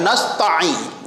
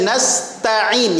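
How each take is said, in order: First: Nasta'in with short ta running into a doubled ain; wrongly pressed ain. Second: Nasta'in with ta and ain each distinct; separate ta and ain. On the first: Teacher shows what to avoid, ta and ain jammed together. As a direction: run "ta" into a squeezed ain in "nasta'in". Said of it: "Jangan nasta'in". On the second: Teacher drills the third point, each letter distinct. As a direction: articulate "ta" then "in" in "nasta'in" one by one. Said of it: "jelaskan satu persatu". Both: Shown as a demonstration.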